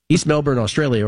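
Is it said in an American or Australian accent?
American. It is said in an American accent.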